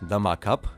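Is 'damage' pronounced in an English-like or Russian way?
Russian. Damage is said the Russian way, like 'damag'.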